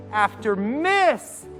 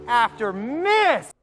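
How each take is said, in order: Both takes have the same delivery.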